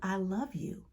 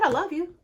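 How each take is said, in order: First: It is said warmly and tenderly. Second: It is said with irritation and impatience. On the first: The feeling is sincere and affectionate. "and looking you in your eyes" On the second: The speaker is fed up and exasperated. "I mean, God, what do you want?"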